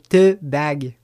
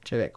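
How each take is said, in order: First: It is read out as spelled, like 'tea bag'. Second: It is said in Gaelic, like 'chivek'. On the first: The speaker calls it wrong. "je m'amuse à le dire comme il est écrit sur la bouteille" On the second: The speaker calls it right. "ça se prononce Chivek"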